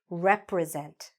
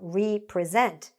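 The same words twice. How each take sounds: First: It begins with a short rep sound. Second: It begins with a long ree, then present. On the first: To act on behalf of something. The speaker calls it right. "what's important is not re, but rep" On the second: To present something again. The speaker calls it wrong. "represent would mean that you present something again"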